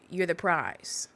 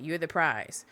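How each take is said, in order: First: You're slow and leaned on, prize falls; stress on you're. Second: You're the prize with prize punched, falling; stress on prize. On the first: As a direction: lean slowly into you're. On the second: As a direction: land hard on prize. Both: Shown as a demonstration.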